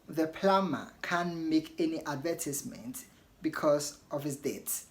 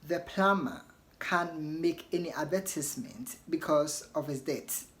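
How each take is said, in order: First: It is said in a British accent. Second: It is said in a British accent.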